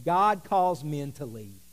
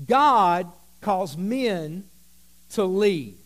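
First: Said in the usual way. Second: "God calls men" stretched out slow and loud; slow, loud preacher emphasis; slow emphatic repeat. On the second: Shown as a demonstration. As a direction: drive it home word by word.

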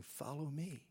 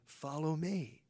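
First: The call "Follow me" dropped softer, "me" falling; quiet, gentle invitation "Follow me"; hushed, simple "Follow me". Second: Said in the usual way. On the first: Retold or imitated. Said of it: "He just keeps saying". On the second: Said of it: "repeated for emphasis".

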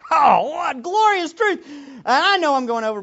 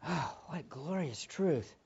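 First: Loud, high joyful exclamation; triumphant preacher cry; exultant. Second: Gentle wonder; tender. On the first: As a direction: burst out in praise. Exultant outburst. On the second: Soft echo of earlier exclamation. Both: Real, not acted.

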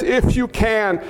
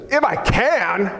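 First: Said in the usual way. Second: Slow, with "can" drawn out hard; emphatic. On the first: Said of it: "The Father says". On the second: Acted. Jesus answering the father, emphatic drawn-out "can". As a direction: lean long and hard on "can".

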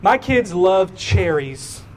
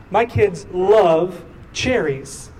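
First: Said in the usual way. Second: "love" drawn out, set off by pauses; stress on love. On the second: Shown as a demonstration. Preacher repeats himself to the congregation, stretching "love" for emphasis. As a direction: lean long on "love", then pause before "cherries".

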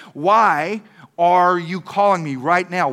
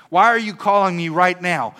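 First: "Why are you calling me right now" drawn out word by word; slow, insistent questioning. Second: Imitating an annoyed phone answer; mock indignation. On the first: Retold or imitated. Kid again asking why the pastor is calling, "Why" stretched slow and insistent. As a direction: lean slowly and hard on "Why" and "calling". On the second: Kid answering the pastor's midnight call, mock indignant. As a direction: demand an explanation, acted out lightly.

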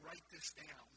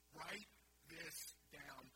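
First: Said in the usual way. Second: Each word drawn out, quieter, slow; "Write this down" said very slowly and softly, word by word; slow, deliberate repeat. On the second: Shown as a demonstration.

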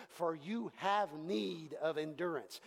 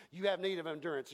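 First: "For you have need of endurance" read slowly, stress on "have"; slow scripture reading. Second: Fast, plain "You have need of endurance"; quick restatement. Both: Shown as a demonstration. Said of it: "It says".

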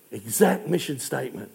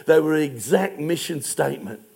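First: Exact mission statement dropped lower and softer; quiet awed repetition; soft emphatic echo. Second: Said in the usual way. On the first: Real, not acted. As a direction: let the repeat of Exact fall hushed. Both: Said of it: "repeated softer".

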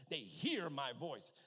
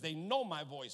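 First: "hear" drawn out slowly as the key word; slow down and put the weight on "hear"; stress on hear. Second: "know" leaned on as the key word; stress on know. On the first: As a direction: lean long on "hear". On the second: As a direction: put the weight on "know". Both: Shown as a demonstration. Contrasts two verses by one word.

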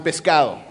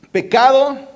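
First: "pescado" with an s before the c; the second word of the pair, "pescado", with its s heard; contrasting Spanish word. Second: "Pecado" said clearly with no s, higher and louder; shown Spanish word. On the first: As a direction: say "pescado" as the look-alike word, falling at the end. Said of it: "That looks almost like the same". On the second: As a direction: present "Pecado" as a word to learn. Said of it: "So let's start with this one". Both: Shown as a demonstration.

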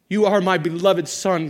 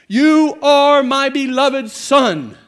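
First: A lighter, moderate quote of God. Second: Booming, slow, much higher voice from heaven; voice of God. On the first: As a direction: say it as God, but restrained. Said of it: "God said". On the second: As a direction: proclaim it slowly like God speaking. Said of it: "a voice came from heaven". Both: Acted.

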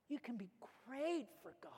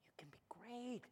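First: Soft but voiced, leaning on "great"; quiet assurance with "great" stressed; emphatic promise. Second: Hushed, breath-only encouragement; very soft, intimate assurance; whispered promise. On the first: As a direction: lift "great" out of a quiet line. Repeats the promise more fully. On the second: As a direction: whisper it to the congregation like a secret. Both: Real, not acted.

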